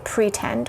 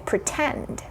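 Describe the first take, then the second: First: The stress is on the first syllable. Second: The stress is on the second syllable. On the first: The speaker calls it wrong. "We don't say pretend" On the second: The speaker calls it right. "we say pretend. Second syllable is stressed"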